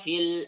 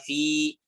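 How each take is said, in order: First: The final vowel is short, linked to the next word. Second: The final vowel is held long at a stop.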